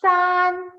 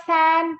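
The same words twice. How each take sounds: First: SAN with an ah, high and level; correct SAN vowel. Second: SAN with the flat vowel of cat; mispronounced SAN. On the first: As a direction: stretch SAN as "saahn" on a high note. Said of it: "It is". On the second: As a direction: say SAN like English "san". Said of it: "It's not san". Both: Shown as a demonstration.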